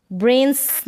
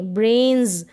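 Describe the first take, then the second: First: ब्रेन्स with hissed s at the end; teacher shows ब्रेन्स wrongly with s. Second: ब्रेन्स ending in a buzzing z; teacher gives ब्रेन्स correctly with z; voiced z ending. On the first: Teacher to class, showing the wrong s ending. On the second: Teacher to class, correct z ending. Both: Shown as a demonstration. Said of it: "ब्रेन्स नहीं".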